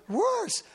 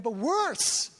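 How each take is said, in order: First: "worse" jumps much higher, stretched and stressed; emphatic worse. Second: Said in the usual way. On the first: Shown as a demonstration. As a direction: hit "worse" high and hard.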